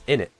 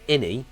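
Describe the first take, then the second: First: The word ends with a sharp glottal cut. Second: The final T sound is dropped entirely. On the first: The speaker calls it right. "You have to pronounce the T without pronouncing the T" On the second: The speaker calls it wrong. "it's not inni, or inni, without the T"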